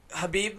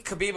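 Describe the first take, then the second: First: Habib said with a plain H, no throaty sound; pronunciation. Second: Khabib said with a rough throaty KH at the start; pronunciation. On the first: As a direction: say Habib starting with a soft English H. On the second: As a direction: scrape the back of the throat on Khabib. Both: Shown as a demonstration. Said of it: "everybody pronounces different".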